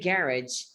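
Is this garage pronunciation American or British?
British. It is said in a British pronunciation. "in British English, we tend to say garage"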